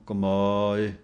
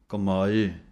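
First: The ending vowel is drawn out long. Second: Both ending vowels get an even length. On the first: The speaker calls it wrong. "ਇਹਨੂੰ ਕਮਾਏ ਲੰਮਾ ਨਹੀਂ ਬੋਲਣਾ" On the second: The speaker calls it right. "ਇੱਕੋ ਜਿਹੀ ਆਵਾਜ਼ ਦੇਣੀ ਹੈ ਕੰਨੇ ਅਤੇ ਲਾਂ ਦੀ"

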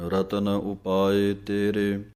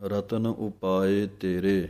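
Both takes have the same delivery.

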